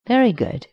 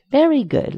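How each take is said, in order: First: High, beaming delight; high overjoyed praise. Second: Higher still, bubbling over; climbing, gushing delight; even more overjoyed. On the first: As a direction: gush with joy at the trade. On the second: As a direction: repeat it with rising glee. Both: A narrator's reading. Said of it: "sounding near overjoyed".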